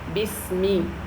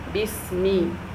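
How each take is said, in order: No difference in how they are said.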